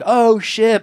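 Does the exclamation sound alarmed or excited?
excited. It sounds excited and pleasantly surprised. The surprise is a welcome one. "And he was like"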